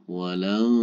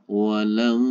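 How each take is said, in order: No difference in how they are said.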